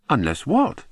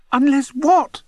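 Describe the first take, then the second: First: Said in the usual way. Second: High, loud squeak of a question; squeaky. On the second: A narrator's reading. Bunce squeaks at the narrator, begging to know, high and loud. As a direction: squeak it out, much higher and louder. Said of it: "squeaked Bunce again".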